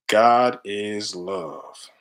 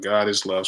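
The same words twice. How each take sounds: First: Each word of "God is love" drawn out long and slow; read out very slowly. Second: Said in the usual way. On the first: Shown as a demonstration. Reading his chest tattoo aloud to viewers, very slow. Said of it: "It's before I was on my spiritual journey".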